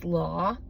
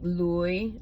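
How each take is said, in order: First: The word is said in a Boston accent. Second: The word is said in a New York accent. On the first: "If you're from like Boston" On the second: "If you're from New York, it's probably"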